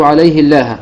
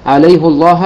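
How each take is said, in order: First: عليه الله said "alayhi-llah"; an i vowel on the haa of عليه; kasra on the haa. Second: First عليه الله said "alayhu-llah"; a u vowel on the haa of عليه; damma on the haa. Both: Shown as a demonstration. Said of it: "حركة الهاء ما بين الضم أو الكسر".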